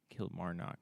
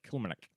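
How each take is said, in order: First: The name is said in a plain American way. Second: The name is said in a Scottish-style way. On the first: The speaker calls it wrong. "that's exactly how I would say that word, but I know it's not said that way" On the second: The speaker calls it right. "probably like"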